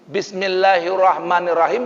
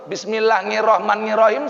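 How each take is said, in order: First: The Arabic sounds are articulated carefully and precisely. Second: The Arabic sounds are articulated loosely and imprecisely. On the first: The speaker calls it right. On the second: The speaker calls it wrong.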